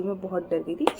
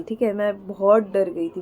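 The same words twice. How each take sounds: First: Much softer repeat, nearly under the breath; quiet. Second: Said in the usual way. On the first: Real, not acted. Telling viewers how scared she was, in a much softer repeat. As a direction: let the words sink away softly. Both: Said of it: "मैं बोल नहीं सकती".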